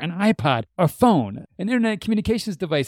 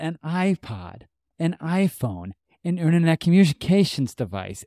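First: It is said at a fast pace. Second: It is said at a normal pace.

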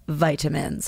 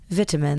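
First: It is said in an American accent. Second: It is said in a British accent.

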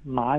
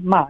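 First: The pitch dips low and then rises. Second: The pitch falls sharply from high to low. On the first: "ma is the third tone" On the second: "and then ma is the fourth tone"

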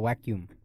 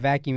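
First: The word starts with a W sound. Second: The word starts with a V sound. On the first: "they say V's is W" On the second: "you don't buy a vacuum"

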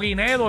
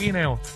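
First: A d sound comes before the final vowel. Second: No d sound comes before the final vowel. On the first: The speaker calls it wrong. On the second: The speaker calls it right.

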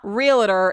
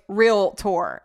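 First: An extra vowel sounds between the L and T. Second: No vowel sounds between the L and T. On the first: The speaker calls it wrong. "It's not R-E-A-L-A-T-O-R" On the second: The speaker calls it right. "it's R-E-A-L-T-O-R"

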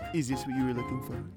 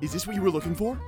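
First: It is said in a sultry, sexy tone. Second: It is said in a plainer, less sexy tone.

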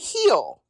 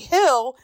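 First: The vowel is a long 'ee' sound. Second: The vowel is a short 'ih' sound. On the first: "they say heel" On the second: "instead of saying hill"

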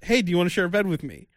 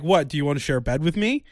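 First: It sounds like a friendly, eager invitation. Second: It sounds like a puzzled, checking question.

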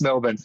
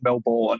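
First: Melbourne is said the Australian way. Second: Melbourne is said the American way. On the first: The speaker calls it right. "It's Melbourne" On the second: The speaker calls it wrong. "We don't pronounce it Melbourne"

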